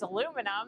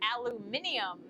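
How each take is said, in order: First: It is said with the American pronunciation. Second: It is said with the English pronunciation. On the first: "There's the American way" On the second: "there is the English way"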